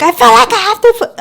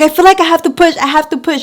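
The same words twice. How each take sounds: First: Mock scream. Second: Pained plea. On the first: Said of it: "I wasn't, like, screaming that". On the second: Retold or imitated. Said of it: "I wasn't, like, screaming that, but".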